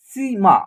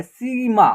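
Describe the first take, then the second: First: Said in the usual way. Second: सीमा with the ई held long; drawn-out long vowel. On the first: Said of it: "इसका उच्चारण क्या हो रहा है". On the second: Shown as a demonstration. Teacher showing pupils a long ई, सीमा drawn out. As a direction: stretch the first syllable of सीमा. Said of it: "खींच करके उच्चारण हो रहा है".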